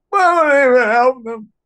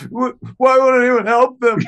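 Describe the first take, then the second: First: Very high, loud tearful wail; imitating a sobbing girlfriend; crying girlfriend. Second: High, loud distraught plea; imitating his panicked girlfriend; hysterical girlfriend. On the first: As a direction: sob out the plea. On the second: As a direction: wail it in panic. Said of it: "I'll never fucking forget her being like".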